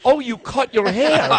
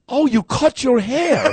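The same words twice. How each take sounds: First: The lady's line again, high and slow through laughter; laughing through quote. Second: Quoting the lady, higher and slow, through laughter; laughing through quote. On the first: Host retelling the religious lady again, laughing. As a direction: repeat the lady's words, still laughing. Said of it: "She goes". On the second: Host retelling the religious lady's line, laughing high. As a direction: laugh while doing the confused lady. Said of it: "The lady goes". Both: Retold or imitated.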